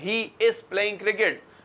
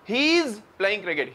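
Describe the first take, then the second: First: He is is said as two full words. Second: He is is joined into one contracted word. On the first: This is how locals usually say it. The speaker calls it wrong. "हम बोल रहे हैं" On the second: This is how British speakers say it. The speaker calls it right. "British कह रहे हैं"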